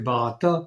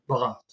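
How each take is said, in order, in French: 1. Le nom se termine par un a final, une voyelle. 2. Le nom se termine par un t final. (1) "c'est Bharata" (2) "ils prononcent plus le, le A final"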